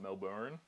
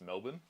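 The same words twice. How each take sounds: First: It is said in a careful non-Australian way. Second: It is said in a relaxed Australian way. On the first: The speaker calls it wrong. "not Melbourne" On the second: The speaker calls it right. "we're just really lazy with pronouncing"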